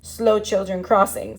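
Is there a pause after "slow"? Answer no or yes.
no. There is no pause after slow.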